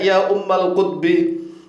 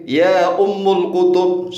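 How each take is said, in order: First: The phrase ends with the sounds ummal kutbi. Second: The phrase ends with the sounds ummul kutub. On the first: The speaker calls it right. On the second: The speaker calls it wrong.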